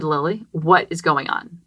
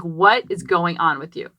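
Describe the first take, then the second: First: Put-on slow, gentle question to a child; much nicer. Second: Said in the usual way. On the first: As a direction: ask it kindly and patiently. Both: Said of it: "I said it much nicer".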